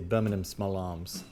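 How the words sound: Birmingham is said the British way.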